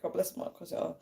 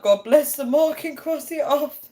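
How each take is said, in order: First: Very soft, half-whispered recital; hushed self-quote. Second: Put-on high, loud recital as a kid; imitated childhood recital. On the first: Retold or imitated. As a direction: say it under your breath, quoting yourself. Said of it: "I was like". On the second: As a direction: recite it like a child obeying mum, pitched up and loud. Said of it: "we'd have to be like".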